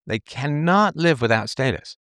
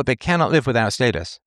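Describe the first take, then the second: First: CANNOT drawn out and pitched up; slow, emphatic repeat, leaning hard on cannot; stress on CANNOT. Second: Said in the usual way. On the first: Real, not acted. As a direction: hammer home the word cannot, slowly.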